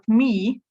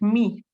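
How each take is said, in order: First: The vowel is held a little longer. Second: The vowel is short. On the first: It means me, used after a preposition. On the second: It means my.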